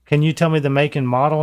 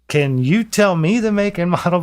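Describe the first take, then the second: First: Said in the usual way. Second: Higher, pointed emphasis on "you" and "me"; indignant stress. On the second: Retold or imitated. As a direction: throw it back, leaning hard on "you" and "me". Speaker throws caller's question back.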